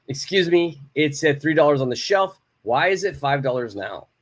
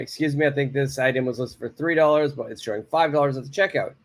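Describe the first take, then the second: First: Firm and direct, no softening. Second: Quick and polite with I think. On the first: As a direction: state it straight to the clerk. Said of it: "one is a little bit more direct". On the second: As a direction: soften it for the clerk, briskly. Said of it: "Okay, one is polite". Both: Shown as a demonstration.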